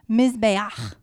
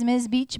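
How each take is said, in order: First: It ends with a throaty, rasping 'ch' sound. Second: It ends with a plain 'ch' as in beach. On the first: The speaker calls it right. "You like my ch?" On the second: The speaker calls it wrong. "It looks like it's Ms. Beach, but it's not"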